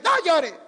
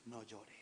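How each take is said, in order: First: Loud, high shouted order; punchy commanding yell; forceful. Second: Very low, hushed murmur; deep, soft pastoral hush; spiritual. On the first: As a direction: order them hard to stop. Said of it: "pero fuerte". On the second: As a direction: say it softly, with unction. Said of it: "pero espiritual". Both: Shown as a demonstration.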